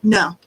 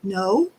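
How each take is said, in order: First: The pitch falls at the end. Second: The pitch rises at the end.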